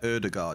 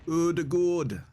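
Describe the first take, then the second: First: The second vowel sounds like 'ah'. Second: The second vowel sounds like 'aw'. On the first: The speaker calls it wrong. "the A is not pronounced like that" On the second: The speaker calls it right. "The A is pronounced like O"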